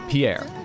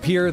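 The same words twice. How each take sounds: First: It is pronounced with a French-style sound. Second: It is pronounced like the English word peer. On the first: This is the usual pronunciation of the personal name. "It's spelled just like the name Pierre" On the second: This is how locals in South Dakota say it. "in South Dakota it's pronounced Pierre"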